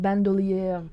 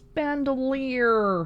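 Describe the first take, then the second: First: It is said with a French-style pronunciation. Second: It is said with an English pronunciation. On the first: The speaker calls it wrong. "favoring heavily on the original French pronunciation" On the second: The speaker calls it right. "no, it's bandolier"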